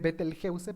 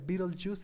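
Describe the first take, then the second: First: The name is sounded out as it is spelled. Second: The name is said in its customary spoken form. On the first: The speaker calls it wrong. "se escribe Betelgeuse" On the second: The speaker calls it right. "pero se pronuncia Betelgeuse"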